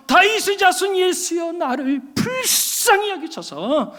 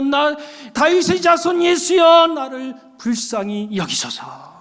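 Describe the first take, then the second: First: High shouted call, slowing into a drawn-out plea; shouting louder. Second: A beggar begging, calling out then sinking into a plea; crying out. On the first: Bartimaeus shouting over the crowd to Jesus, higher desperate cry. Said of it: "더 크게 소리를 지르면서". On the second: Preacher voicing blind Bartimaeus calling to Jesus, slow pleading cry. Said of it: "바디메오가 소리를 지르잖아요". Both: Retold or imitated.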